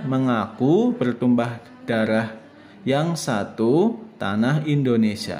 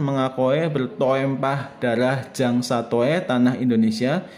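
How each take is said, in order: First: The vowels are sounded as a single u. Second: The vowels are sounded as separate o and e. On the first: The speaker calls it right. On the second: The speaker calls it wrong. "dibaca sesuai tulisan"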